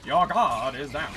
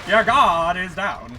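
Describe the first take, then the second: First: Slow, grand and self-important; pompous voice. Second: Louder, slow, grandiose proclamation; booming pompous voice. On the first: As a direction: announce it like a smug conqueror. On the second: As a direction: boom it out like a gloating emperor. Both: Acted. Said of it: "pompous ass voice to a bunch of spiders".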